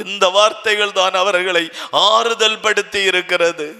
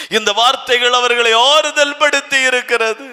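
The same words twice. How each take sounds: First: Said in the usual way. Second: Higher and louder, ஆறுதல் lifted and ending on a rise; emphatic repeat. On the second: Shown as a demonstration. Preacher repeating the line to the church, higher and louder. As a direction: hammer it home the second time. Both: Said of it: "repeated louder".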